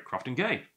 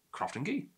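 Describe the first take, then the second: First: Crofton Gay, ending in an ay sound; corrected pronunciation. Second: Crofton Gee, ending in a rising ee sound; mistaken pronunciation. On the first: Host correcting his slip on the whisky's name, ay pronunciation. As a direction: say "Crofton Gay" with Gay rhyming with day. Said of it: "Oh, sorry". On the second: Host slipping into the version he was told, ee pronunciation. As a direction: say "Crofton Gee" with Gee rhyming with key. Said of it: "Oh, sorry, Crofton Gay". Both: Shown as a demonstration.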